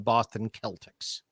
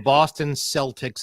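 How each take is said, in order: First: Celtics begins with a hard K sound. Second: Celtics begins with a soft S sound. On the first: This is how the word itself is said. "and not the Boston Celtics? ... it should be Celtic. That's what the word is" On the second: This is how the team is actually called. "Why is it called the Boston Celtics"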